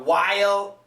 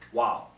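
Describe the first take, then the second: First: The word is said in full, clearly. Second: The word is reduced, sounding like 'wow'. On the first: "perfect pronunciation" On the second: "many times it's pronounced wow"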